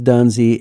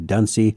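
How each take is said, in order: First: The middle consonant is a buzzed Z sound. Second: The middle consonant is a hissed S sound. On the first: The speaker calls it right. "but it is Dunsey" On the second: The speaker calls it wrong. "I apologize if I'm aspirating the S, ... I may say Dunsey"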